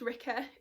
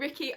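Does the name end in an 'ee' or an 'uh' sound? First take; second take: uh; ee. First: The name ends in an 'uh' sound. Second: The name ends in an 'ee' sound. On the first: The speaker calls it right. "I think it's actually pronounced Ricka" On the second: The speaker calls it wrong. "I always pronounce it as Ricky in my head"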